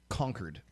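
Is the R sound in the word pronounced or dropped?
pronounced. It is said with the R pronounced.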